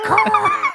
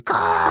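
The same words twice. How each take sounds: First: Very high, loud mock seabird screech with a laugh; high seagull caw. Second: Low, loud mock seabird caw; low seagull caw. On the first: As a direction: squawk it like a gull, high and loud. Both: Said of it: "one of the seabirds going".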